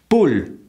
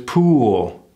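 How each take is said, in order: First: The oo vowel is short and clipped. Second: The oo vowel is drawn out and elongated. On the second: "the American ooh"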